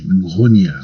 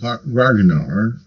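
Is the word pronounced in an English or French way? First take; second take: French; English. First: It is said with a French-style pronunciation. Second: It is said with an English-style pronunciation.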